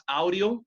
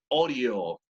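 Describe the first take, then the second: First: Audio with a Spanish AU diphthong; wrong "au" pronunciation. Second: Audio starting with one O vowel. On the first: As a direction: slowly say audio starting "ow". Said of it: "Como si fuera una sola letra". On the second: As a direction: slowly say audio as "odio". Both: Shown as a demonstration.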